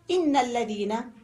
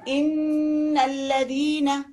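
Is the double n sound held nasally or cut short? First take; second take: short; held. First: The double n is short without a nasal hum. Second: The double n is held with a nasal hum. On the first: The speaker calls it wrong. "don't say" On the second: The speaker calls it right. "You give it this غنة"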